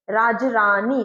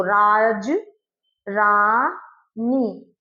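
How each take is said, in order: First: Said in the usual way. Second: "राज, रानी" broken into राज, रा, नी with pauses; very slow, separated beats on "राज, रानी"; syllable by syllable. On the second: Shown as a demonstration. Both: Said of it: "तीन syllable वाले sound हो गए".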